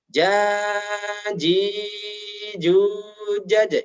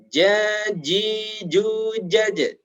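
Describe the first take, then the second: First: The long vowels are held far too long. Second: The long vowels are held for one beat. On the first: The speaker calls it wrong. "jangan sampai terlalu panjang" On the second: The speaker calls it right. "panjangnya cukup satu alif atau satu ayunan"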